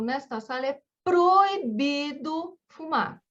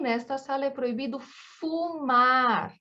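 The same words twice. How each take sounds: First: The word proibido carries the main stress. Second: The word fumar carries the main stress. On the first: You may do anything here, but smoking is forbidden. "você faz o que você quiser nesta sala, só que proibido, fumar é proibido" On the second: Nothing else is forbidden here except smoking. "qualquer outra coisa não é proibida, menos fumar"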